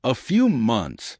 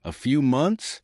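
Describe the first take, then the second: First: Slow, offhand and dismissive. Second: Higher, rising stunned question; stunned disbelief. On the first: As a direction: toss it off like it's nothing. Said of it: "dismissing it like it was nothing". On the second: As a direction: repeat it in shock. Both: A narrator's reading.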